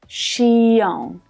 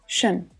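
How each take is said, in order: First: The ending is said as two syllables. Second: The ending is one short, low, unstressed syllable. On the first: The speaker calls it wrong. "This is not to be pronounced xion" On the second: The speaker calls it right. "it's just one syllable and it's always unstressed"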